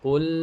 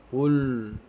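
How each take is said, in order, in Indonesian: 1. Bunyi l terakhir terdengar tipis dan ringan. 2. Bunyi l terakhir terdengar tebal dan berat. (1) "Yang betul adalah qul" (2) "yang salah adalah ketika kita baca qul, maka lamnya menjadi tebal"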